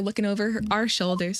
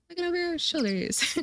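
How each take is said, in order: First: It is said in the speaker's own voice. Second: It is said in a put-on female voice.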